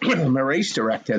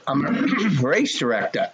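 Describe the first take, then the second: First: The phrase is mumbled quietly and unclearly. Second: The phrase is said clearly and audibly.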